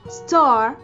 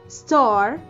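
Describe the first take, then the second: Both takes have the same delivery.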